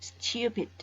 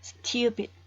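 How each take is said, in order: First: A y sound follows the t, styoo. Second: The same.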